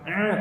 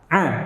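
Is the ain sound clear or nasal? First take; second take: nasal; clear. First: The sound is pressed hard and goes into the nose. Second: The sound is lightly pressed and released, not nasal. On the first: The speaker calls it wrong. "terlalu ditekan sehingga masuk ke pangkal hidung" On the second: The speaker calls it right. "Tekan sedikit lepas langsung. A, tuh gitu"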